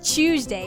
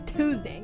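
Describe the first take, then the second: First: It starts with a ch sound. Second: It starts with a t sound. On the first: The speaker calls it wrong. "If it was Tuesday, it'd be spelled like chew" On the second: The speaker calls it right. "It's Tuesday"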